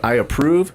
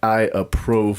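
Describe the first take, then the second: First: Approve is pronounced in the usual way. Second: Approve is pronounced in an odd way. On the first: "instead of saying" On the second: "let's purposefully mispronounce a word"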